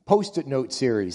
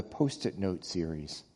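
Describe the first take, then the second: First: Post-it note series with emphasis on Post-it; stress on Post-it. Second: Said in the usual way. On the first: Shown as a demonstration.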